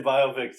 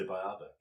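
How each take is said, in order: First: Biopic said BYE-oh-pick, loud; biopic as BIO-pic. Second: Biopic said bye-OP-ick, rhyming with myopic. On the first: Shown as a demonstration. Host agrees with co-host, biopic as BYE-oh-pick. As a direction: stress the first syllable of biopic, long O. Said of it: "it's funny 'cause people say biopic". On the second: Retold or imitated. Host reports what other people say, biopic as bye-OP-ick. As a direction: stress the middle of biopic, short O. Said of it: "people say biopic".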